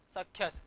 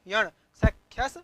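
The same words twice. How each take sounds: First: Said in the usual way. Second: Teacher calls out सख्यस loud and firm; loud emphatic answer. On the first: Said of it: "क्या बना?". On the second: Shown as a demonstration. Teacher stresses the form for students, loud. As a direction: punch सख्यस out to the class. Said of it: "क्या किया?".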